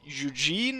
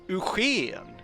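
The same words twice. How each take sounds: First: The name is said with English pronunciation. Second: The name is said with Swedish pronunciation. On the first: "as you say it in English" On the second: "Swedish name places in Swedish"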